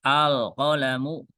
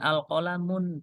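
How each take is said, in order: First: The word ends in a plain -u vowel. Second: The word ends in -un with a final n. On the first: The speaker calls it right. "tidak boleh dibaca dengan" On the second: The speaker calls it wrong. "tidak boleh"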